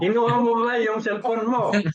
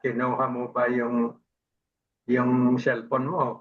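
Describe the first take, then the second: First: The question is said loudly and forcefully. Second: The question is said quietly and softly. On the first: "nilakasan ko ang boses ko" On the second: "ma mahinang salita"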